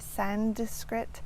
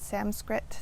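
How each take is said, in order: First: A d sound is added before skrit. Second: An m sound replaces the n before skrit. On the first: "adding a D in there" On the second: "or an M"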